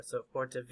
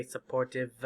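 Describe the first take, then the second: First: Supportive wrongly ending in "vay"; voiced final E. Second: Supportive wrongly ending in an added "vuh"; voiced final E. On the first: Teacher shows mistake with silent E, supportive ending in "vay". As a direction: say supportive as suh-por-ti-vay, low and soft. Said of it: "No, it's silent". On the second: Teacher warns about silent E, supportive with extra final vowel. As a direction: say supportive as suh-por-tiv-uh, low and soft. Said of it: "We don't sub-, say supportive". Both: Shown as a demonstration.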